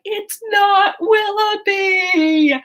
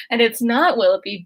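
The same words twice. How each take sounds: First: High, slow, drawn-out mock correction; deadpan Eleanor correction. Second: Said in the usual way. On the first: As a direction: stretch it out high and patient, "It's not Willoughby". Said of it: "and Eleanor's like".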